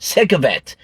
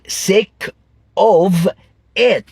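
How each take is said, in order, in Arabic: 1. الكلمات بتتوصل ببعض، والحرف الساكن بيتوصل بالحرف اللي بعده. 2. الكلمات التلاتة بتتقال منفصلة، مش متوصلة. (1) "هتسمعها دايما كده" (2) "محدش هتسمعه بيقول"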